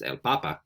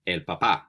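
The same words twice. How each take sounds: First: "papa" stressed on the first syllable, PA-pa. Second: "papá" stressed on the last syllable, pa-PA; final-syllable stress. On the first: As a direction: say "papa" with the accent up front, PA-pa. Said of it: "Does it mean potato?". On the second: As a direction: land the accent on the end of "papá". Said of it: "No. So it's". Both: Shown as a demonstration.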